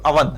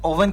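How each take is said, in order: First: The word begins with an 'uh' vowel. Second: The word begins with an 'oh' vowel. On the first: The speaker calls it right. "उच्चारण हमेशा सही क्या करो, अवन" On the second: The speaker calls it wrong. "कभी भी ओवन नहीं बोलना"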